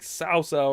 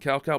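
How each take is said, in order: First: The name begins with an S sound. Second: The name begins with a K sound. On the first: The speaker calls it right. "I think it's pronounced like Sao Sao" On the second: The speaker calls it wrong. "I know that I'm mispronouncing Cow Cow"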